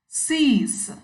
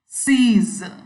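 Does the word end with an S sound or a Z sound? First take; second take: S sound; Z sound. First: The word ends with a hissing S sound. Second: The word ends with a buzzing Z sound. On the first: The speaker calls it wrong. "The last S is sounding like S" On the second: The speaker calls it right. "the actual pronunciation is Z"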